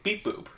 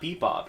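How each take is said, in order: First: It is said as two long syllables, beep boop. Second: It is said as two short syllables, bebop. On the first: The speaker calls it right. "It's beep boop" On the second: The speaker calls it wrong. "you're saying it wrong"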